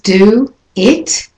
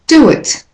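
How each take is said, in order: First: The words are said separately, without a linking sound. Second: The words are joined by a linking w sound.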